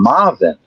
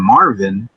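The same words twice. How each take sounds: First: The R sounds like an H, Bahamian-style. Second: The R is pronounced in the standard way.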